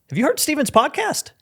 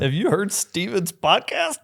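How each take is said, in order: First: It sounds sincere and genuinely impressed. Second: It sounds mocking, as if holding back laughter. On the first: The podcast is genuinely worth hearing. The speaker calls it right. "with the right tonality" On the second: The podcast is something to laugh at. The speaker calls it wrong. "Or like they're holding back laughter"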